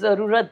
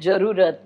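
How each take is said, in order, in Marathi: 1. शब्दाची सुरुवात 'z' आवाजाने होते. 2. शब्दाची सुरुवात 'j' आवाजाने होते. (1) "जरुरत नाही" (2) "जला ज"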